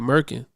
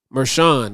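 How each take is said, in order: First: The middle consonant is a hard k sound. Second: The middle consonant is a soft sh sound. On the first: The speaker calls it wrong. "when I was saying Merkin, I'm like, that's not how you pronounce that" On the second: The speaker calls it right. "that's how you pronounce it"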